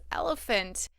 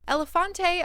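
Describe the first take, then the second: First: The name is said with three syllables. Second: The name is said with four syllables. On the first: The speaker calls it right. "It's elephant" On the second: The speaker calls it wrong. "apparently isn't pronounced that way"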